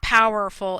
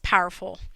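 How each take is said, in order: First: All three syllables are fully pronounced. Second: The middle syllable is dropped, giving two syllables. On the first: The speaker calls it wrong. "It's not powerful" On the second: The speaker calls it right. "not each syllable is actually pronounced"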